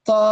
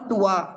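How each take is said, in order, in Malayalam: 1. "t" നേരിട്ട് സ്വരാക്ഷരത്തിലേക്ക് പോകുന്നു. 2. "t" യ്ക്ക് ശേഷം w പോലുള്ള ഒരു ഗ്ലൈഡ് വരുന്നു. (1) "ഇറ്റ് ഇസ് തോ" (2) "നോട്ട് ത്വാ"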